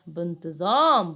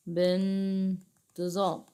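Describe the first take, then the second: First: Said in the usual way. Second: بانتظام slowly stretched, pausing on the first syllable; drawn-out word. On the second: Shown as a demonstration. Teacher repeating the answer for pupils, drawn-out word. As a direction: sound out بانتظام slowly and softly.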